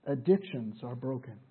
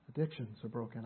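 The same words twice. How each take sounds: First: Said in the usual way. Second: Softer, low restatement; hushed repeat. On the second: Real, not acted. Preacher repeats his point to the congregation, hushed. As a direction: say it back quietly, letting it sink in.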